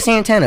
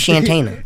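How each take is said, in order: First: The name begins with an 's' sound. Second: The name begins with a 'sh' sound. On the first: The speaker calls it wrong. "It ain't Santana" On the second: The speaker calls it right. "It has to be Shantana"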